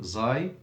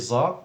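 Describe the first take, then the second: First: The letter name ends in an 'ai' glide. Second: The letter name ends in a plain 'a' vowel. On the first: The speaker calls it right. "the right way is saying zai" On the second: The speaker calls it wrong. "Some people say za"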